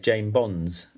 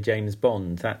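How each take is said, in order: First: It has no final m and an added s. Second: It has a final m and no final s. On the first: "what they actually say is Jane Bonds. They put the S on the end of Bonds" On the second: "it's very difficult to say James Bond"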